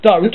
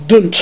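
First: Said in the usual way. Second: "dunt" said with a short u, no o sound; Norfolk dunt. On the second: Shown as a demonstration. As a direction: say "dunt" the Norfolk way, rhyming with hunt. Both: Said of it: "No, it's dunt, not don't".

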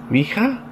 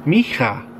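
First: "Micha" with a questioning rise, checking the sound; unsure second try. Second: "Micha" said flatly with a falling tune, as a tentative reading; first try at the name. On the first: Player unsure of a character's name, rising tune. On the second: Player sounding out a new character's name, falling tune. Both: Shown as a demonstration. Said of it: "how do you pronounce that".

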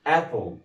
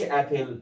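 First: "apple" with the P run into a dark L, "A-pol"; rounded syllabic L. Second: "apple" with a full vowel before the L, "ap-pel"; wrong pronunciation demo. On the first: Teacher correcting pupils, "apple" said as "A-pol" with rounded ending. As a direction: stress the start of "apple", rounding P straight into L. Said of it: "ضميت الحرف اللي قبل ال L". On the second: Teacher showing pupils what not to say, "apple" mispronounced as "ap-pel". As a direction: say "apple" as ap-PEL, the ending spelled out. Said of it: "ما أقولش apple". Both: Shown as a demonstration.

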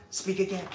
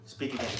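First: Eager command. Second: Said in the usual way. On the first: Real, not acted. Asking the dog for a trick.

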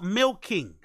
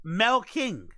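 First: Said in the usual way. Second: "Milking" said as "melking", with an eh vowel; mispronounced milking. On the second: Shown as a demonstration. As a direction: make "Milking" start like melt. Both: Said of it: "Not milking".

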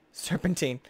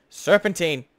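First: Said in the usual way. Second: "Serpentine" called out louder, falling. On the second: Shown as a demonstration. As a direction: shout "Serpentine" as an order.

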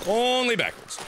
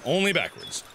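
First: "Only" stretched long and pitched up. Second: Said in the usual way. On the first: Real, not acted. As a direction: lean long and high on "Only". Repeats with drawn-out first word.

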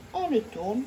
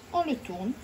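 The two takes are said the same way.

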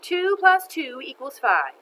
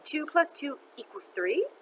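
First: "Two plus two equals five" slow and loud, falling at the end; emphatic statement. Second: "Two plus two equals three" high, rising at the end; unsure question. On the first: Teacher writes sum on blackboard. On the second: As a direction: lift "three" into a doubtful question. Teacher tries the sum again, unsure. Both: Acted.

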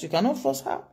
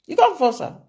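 First: Said in the usual way. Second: You can't force her, the whole line pushed up high and louder; emphatic repeat. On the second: Real, not acted. Commentator insisting to viewers no one can force the wife, high emphatic. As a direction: hammer the point home, high and loud.

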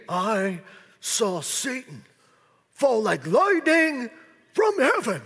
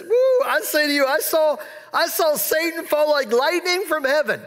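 First: Slow, heavy, ominous I saw Satan; solemn rebuke. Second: Higher, joyful telling; excited Jesus. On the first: Preacher showing the wrong reading, slow solemn rebuke to disciples. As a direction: drag it out like a grim warning. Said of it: "now see, that could be". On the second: Preacher voicing Jesus overjoyed with the returning seventy, excited. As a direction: say it with rising delight. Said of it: "this is probably how Jesus said this". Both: Retold or imitated.

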